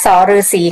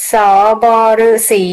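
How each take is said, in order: First: สฤาษี read as sa-ruesi; correct reading. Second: สบฤาษี read as sop-ruesi, the common mistake; misreading สบฤาษี; wrong reading. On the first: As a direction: say สฤาษี with a short sa, no b. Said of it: "ในภาษาไทยอ่านว่าสฤาษีค่ะ". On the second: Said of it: "อ่านว่าสฤาษีค่ะ ไม่ใช่". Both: Shown as a demonstration.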